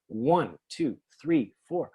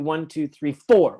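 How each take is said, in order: First: Only the first count, one, is stressed. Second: The fourth count, four, is also stressed. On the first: The normal pulse of the measure. The speaker calls it right. "why do you always put the stress on the first beat?" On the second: Every beat demands attention, breaking the pulse. The speaker calls it wrong. "I want stress too"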